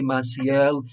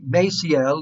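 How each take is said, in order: First: The name is said with a Spanish pronunciation. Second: The name is said with an American pronunciation. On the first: "I say Maciel. It's the same as in Spanish" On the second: "Americans may want to say Maciel. That's the way Americans say it"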